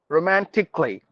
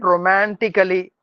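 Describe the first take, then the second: First: The ending is said with the A silent. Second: The ending is said with the A sounded. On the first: The speaker calls it right. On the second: The speaker calls it wrong.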